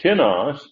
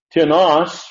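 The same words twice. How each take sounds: First: "tinos" with the accent on TI; "tinos" said TI-nos, first syllable stressed. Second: "Tenos" with the accent on NOS; "Tenos" said te-NOS, last syllable stressed. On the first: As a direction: lean on the I sound in "tinos", TI-nos. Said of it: "on the first syllable". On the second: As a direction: punch the ending of "Tenos", te-NOS. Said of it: "accent on the last". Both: Shown as a demonstration.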